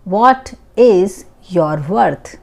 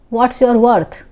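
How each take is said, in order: First: Slowed-down repeat, each word separate; teacher's slow dictation pace; slow and clear. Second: Said in the usual way. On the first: Shown as a demonstration. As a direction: spell it out slowly for a learner. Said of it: "teacher repeats slowly for learners". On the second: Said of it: "teacher models the sentence".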